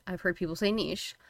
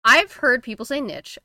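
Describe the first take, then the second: First: NICHE said as "neesh"; pronounced neesh. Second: NICHE said as "nitch"; pronounced nitch. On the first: Co-host comparing what people say, neesh version. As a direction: say NICHE to rhyme with leash, softer. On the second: Co-host comparing what people say, nitch version. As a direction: say NICHE to rhyme with itch, higher and louder. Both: Shown as a demonstration.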